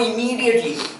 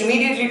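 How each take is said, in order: First: The word is said slowly with strong stress. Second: The word is said quickly with little stress. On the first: The urgency is the important point. "that was stressed and slow" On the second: The timing is only a passing detail. "Fast and not so much stressed"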